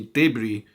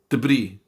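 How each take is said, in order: First: It is said with the British English pronunciation. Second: It is said with the American English pronunciation. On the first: "in British English we say debris" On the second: "in American English you say debris"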